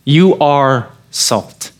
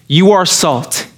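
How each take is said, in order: First: You are salt said very slowly, each word weighted, falling on salt; you are salt stretched out and stressed; slow emphatic. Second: Said in the usual way. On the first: Shown as a demonstration.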